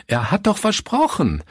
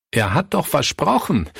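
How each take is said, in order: First: Much higher, desperate repeated cry; the second cry climbs into despair. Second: Higher, anguished outcry; crying out. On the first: Pastor Fritz repeats his protest, cry pitched far higher. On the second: Pastor Fritz cries out over a broken promise, pitched up. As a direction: call out in disbelief. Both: A narrator's reading. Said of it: "rief Pastor Fritz".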